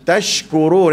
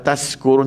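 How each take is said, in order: First: The middle consonant is an sh sound. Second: The middle consonant is a plain s sound. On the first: The speaker calls it right. "pastikan tashkurun" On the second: The speaker calls it wrong. "Jangan baca macam kita baca S saja. ... tak boleh"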